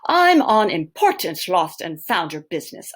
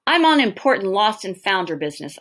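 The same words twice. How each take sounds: First: Slightly posh, louder retake; poshest voice. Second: A touch of posh, louder; poshest voice. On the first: Teacher retries the boy's posh bluff to the manager. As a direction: try the posh voice again lightly. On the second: Boy bluffing the manager with a posh voice. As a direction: put on a mildly posh tone. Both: Acted. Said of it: "I say in my poshest voice".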